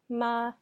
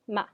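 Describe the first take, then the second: First: The pitch stays high and level. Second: The pitch falls sharply from high to low. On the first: It means mother. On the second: It means to scold.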